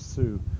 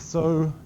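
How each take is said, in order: First: The vowel is pronounced like 'oo'. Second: The vowel is pronounced like 'oh'. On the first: The word is read by spelling rules alone. "she's going to pronounce this as su" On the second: The word is read from whole-word memory. "the so pronunciation is no longer available"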